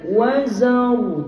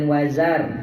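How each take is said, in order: First: The r sound is heavy and thick. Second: The r sound is light and thin. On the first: The speaker calls it right. "Dia kena wazar tebal" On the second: The speaker calls it wrong. "jangan wazar. Wazar tu nipis"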